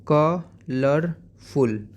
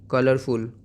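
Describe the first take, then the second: First: colourful in three slow beats, ka... lar... ful; split into syllables. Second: Said in the usual way. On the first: Shown as a demonstration. Teacher modelling for pupils, syllable by syllable. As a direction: stretch colourful, pausing after ka and lar. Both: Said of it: "आप कैसे बोलोगे".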